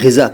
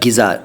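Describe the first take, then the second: First: It starts with a throaty gh and has z. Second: It starts with a plain g and has z. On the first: The speaker calls it right. "मैं ग़िज़ा कह रहा हूँ" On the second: The speaker calls it wrong. "नहीं कह रहा"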